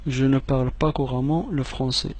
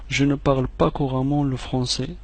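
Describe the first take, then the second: No difference in how they are said.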